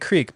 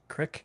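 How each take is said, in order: First: The vowel is long, rhyming with seek. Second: The vowel is short, rhyming with sick. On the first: This is the speaker's own way of saying it. "say creek" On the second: This is how old Southern people say it. "I've heard old Southern people say crick"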